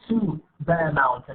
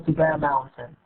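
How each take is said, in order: First: The word 'to' has a full vowel. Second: The word 'to' has a reduced vowel. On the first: The speaker calls it wrong. "I'm not saying to Bear Mountain no" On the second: The speaker calls it right. "يعني الأو مخففة"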